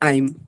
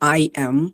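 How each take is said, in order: First: The two words are blended into one short word. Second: Both words are said fully and separately.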